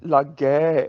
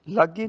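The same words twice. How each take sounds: First: ਲਾਗੈ with stretched open ai; correct ending. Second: ਲਾਗੇ with short, narrow final e; wrong ending. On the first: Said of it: "ਗੱਗੇ ਨੂੰ ਦੁਲਾਵਾਂ". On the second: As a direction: lightly end ਲਾਗੇ on e. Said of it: "ਲਾਗੇ ਨਹੀਂ". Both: Shown as a demonstration.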